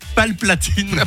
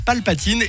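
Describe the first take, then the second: First: The name is said with an extra L sound. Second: The name is said without an extra L sound. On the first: The speaker calls it wrong. "je dis Palplatine" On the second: The speaker calls it right. "Il s'appelle Palpatine"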